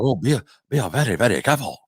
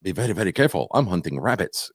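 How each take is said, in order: First: A hint of a put-on Japanese accent; lightly mock the accent he did not do. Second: Elmer Fudd. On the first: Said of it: "he didn't do it like that". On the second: Retold or imitated. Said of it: "It sounded more like".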